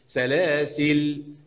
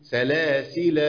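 First: The word ends with a long 'a' vowel. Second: The word ends on a silent 'l' sound. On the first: The alif is kept when stopping. "أثبت الألف في الوقف" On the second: The alif is dropped when stopping. "ولا احذفه"

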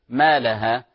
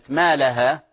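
No difference in how they are said.

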